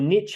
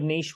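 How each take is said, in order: First: It is said in an American way. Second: It is said in a non-American way.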